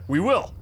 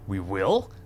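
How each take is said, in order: First: It is said in a bright, upbeat tone. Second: It is said in a flat, unenthusiastic tone.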